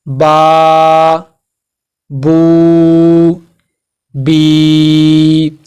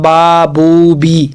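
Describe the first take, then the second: First: Each vowel is held for about a second. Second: Each vowel is cut short, not held. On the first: The speaker calls it right. "हमने एक सेकंड के लिए लंबा कर दिया इसे" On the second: The speaker calls it wrong. "ये तरीका बिल्कुल गलत है"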